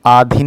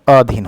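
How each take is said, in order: First: आधीन with a long आ at the start; wrong spelling shown. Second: अधीन with a short अ at the start; correct spelling. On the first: Teacher shows students the wrong form, आधीन with a long आ. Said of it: "नहीं होता". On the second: Teacher gives students the correct form, अधीन with a short अ. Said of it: "होता है". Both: Shown as a demonstration.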